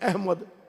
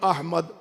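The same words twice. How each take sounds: First: The name is said in colloquial form. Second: The name is said in careful Arabic form. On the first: The speaker calls it wrong. "हम बिगाड़ के बोलते हैं" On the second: The speaker calls it right. "इसमें गिरामी है"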